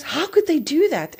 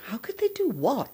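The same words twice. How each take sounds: First: High, loud mock outrage; retold husband's aggrieved cry; indignant outburst. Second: High puzzled echo, rising mid-phrase; retold bewildered query; baffled question. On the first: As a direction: act out a hurt, upset protest. Retells husband's upset phone reaction. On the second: Retells her baffled answer to husband.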